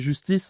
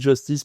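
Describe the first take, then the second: First: The word is pronounced the French way. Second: The word is pronounced the English way. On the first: It is the original local pronunciation. "on est français, donc on va dire que c'est justice" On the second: It is the international pronunciation most people use. "tout le monde dit justice parce que ça s'est internationalisé"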